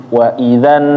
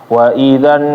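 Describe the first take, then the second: Both takes have the same delivery.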